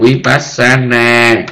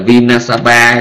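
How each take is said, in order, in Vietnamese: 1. Các âm tiết được phát theo thứ tự vi-pas-sa-na. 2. Các âm tiết được phát theo thứ tự vi-na-sa-pa. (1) "mình nói là vipassana" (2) "người đó tối ngày cứ là vinasapa"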